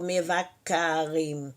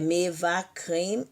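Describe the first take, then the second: First: An extra a vowel separates k and r. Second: The k and r sounds join with no vowel. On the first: The speaker calls it wrong. "não ficou mevakarim" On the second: The speaker calls it right. "é mevakrim"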